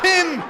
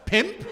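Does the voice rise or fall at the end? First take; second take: fall; rise. First: It is said as a falling exclamation. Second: It is said as a rising question.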